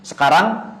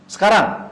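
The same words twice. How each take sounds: First: "Sekarang" rising at the end as a question; question intonation. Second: "sekarang" falling at the end as a statement; statement intonation. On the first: Teacher showing how modern speech asks a question, rising intonation. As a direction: ask "Sekarang" with a lifted final syllable. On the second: Teacher showing how modern speech gives information, falling intonation. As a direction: state "sekarang" with the pitch dropping to a close. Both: Shown as a demonstration. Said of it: "pakai apa? Intonasi".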